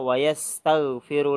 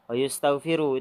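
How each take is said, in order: First: The vowel after the first 'y' is 'a'. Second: The vowel after the first 'y' is 'u'. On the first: The speaker calls it right. "Yang benar adalah" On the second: The speaker calls it wrong. "kalau kata beliau wa yustaghfiru itu salah"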